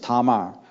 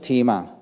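First: The name is said with a Hebrew pronunciation. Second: The name is said with an English pronunciation. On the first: "The Hebrew pronunciation is Tamar" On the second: "But English pronunciation"

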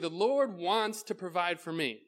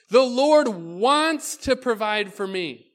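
First: It is said in a flat, unexcited way. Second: It is said in a lively, excited way. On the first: The speaker calls it wrong. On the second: The speaker calls it right.

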